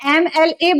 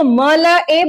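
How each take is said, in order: First: Each letter is said by its full name. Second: The letters are read as short plain syllables. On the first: The speaker calls it right. "इसको एम एल ए बोलते हो" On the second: The speaker calls it wrong. "Obviously इसको आप जो है म ल अ नहीं कहते"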